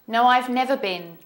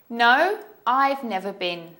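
First: The sentence is said at a fast pace. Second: The sentence is said at a slow pace.

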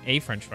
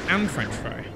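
First: The article is a plain short 'a'. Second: The article is said as 'an', like 'Anne'. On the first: The speaker calls it right. "instead of saying a French fry" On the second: The speaker calls it wrong. "you say Anne French fry"

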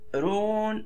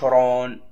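First: The r is pronounced thin and light. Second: The r is pronounced thick and heavy. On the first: The speaker calls it right. "نقول فيعتذرون، رون" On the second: The speaker calls it wrong. "ما نقولش رون"

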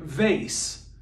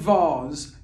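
First: It is said with an American accent. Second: It is said with a British accent.

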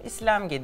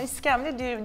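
First: The word is said as islemge. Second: The word is said as iskemle. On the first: The speaker calls it wrong. "İslemge diyormuşum" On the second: The speaker calls it right. "iskemle diyemiyormuşum"

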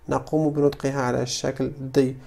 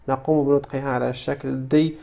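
The two takes are said the same way.

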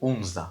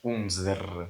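First: The word ends with an a-like vowel. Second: The word ends with a clear r sound. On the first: The speaker calls it right. "Правильніше буде умза" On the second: The speaker calls it wrong. "ти не читаєш умзр"

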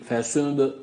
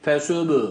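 First: The final b is released lightly, without a vowel. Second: The final b is exaggerated, adding a vowel sound. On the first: The speaker calls it right. "Çok fazla abartmıyoruz" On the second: The speaker calls it wrong. "Abartırsak ne olur? ... Hareke vermiş oluruz"

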